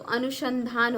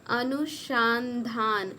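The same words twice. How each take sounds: First: Said in the usual way. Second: अनुसंधान drawn out very slowly, part by part; slow sounding out. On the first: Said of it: "तो अनुसंधान होता है". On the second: Shown as a demonstration. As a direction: stretch अनुसंधान syllable by syllable. Teacher sounding out a spelling. (अनुसंधान को धीरे-धीरे तोड़कर बोलें)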